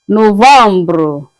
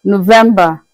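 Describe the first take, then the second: First: Novembre said no-vam-bro; French pronunciation. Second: Said in the usual way. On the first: Shown as a demonstration. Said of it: "pronounced as novembre". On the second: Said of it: "That's in English".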